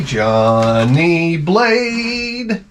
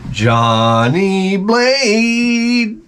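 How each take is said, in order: First: Johnny Blade stretched very slowly, falling on Blade; slow grand intro of Johnny Blade; drawn-out name. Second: Johnny Blade stretched very slowly, rising on Blade; slow rising call of Johnny Blade; rising drawn-out name. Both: Shown as a demonstration.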